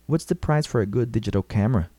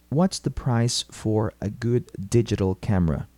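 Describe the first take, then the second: First: It is said at normal speed. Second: It is said slowly and carefully.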